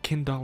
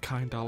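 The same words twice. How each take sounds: First: The first part sounds like the word kindle. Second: The first part does not sound like kindle. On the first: "I'm pronouncing it Kindala ... because I'm assuming it's meant to be like Kindle" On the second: "instead of Kindala"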